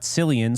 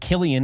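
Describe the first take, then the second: First: The name begins with a soft S sound. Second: The name begins with a hard K sound. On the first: The speaker calls it wrong. "and not Cillian, so I've been saying that wrong" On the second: The speaker calls it right. "his name is pronounced Killian"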